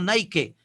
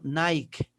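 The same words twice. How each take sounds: First: The final e is sounded as a vowel. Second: The final e is silent. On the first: The speaker calls it wrong. "No Nike" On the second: The speaker calls it right. "sino Nike. La E no suena"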